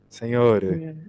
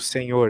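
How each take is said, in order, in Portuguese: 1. A palavra termina com uma vogal e extra. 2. A palavra termina claramente no som de r. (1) "Eles colocam o E no final" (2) "Aqui eles não falam tipo senhor"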